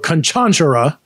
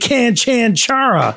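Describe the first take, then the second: First: The stress is on a middle syllable. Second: The stress is not on a middle syllable. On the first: The speaker calls it right. "you emphasize the middle syllable" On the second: The speaker calls it wrong. "I wanted to say Canchanchara"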